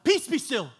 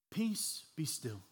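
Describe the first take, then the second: First: It is shouted forcefully and dramatically. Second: It is said calmly and casually.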